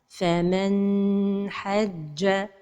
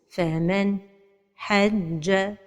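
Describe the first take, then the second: First: The n sound is held for a long time. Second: There is a pause right after the n sound. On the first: "La deuxième erreur, c'est de prolonger son temps" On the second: "La troisième erreur, c'est la pause"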